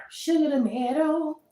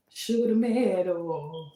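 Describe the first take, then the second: First: Sweet pet talk. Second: Said in the usual way. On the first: Shown as a demonstration. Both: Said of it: "You gotta talk to them like Sugar tomato".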